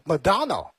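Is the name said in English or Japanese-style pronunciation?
English. It is said with a plain English pronunciation. "英文的话是Madonna"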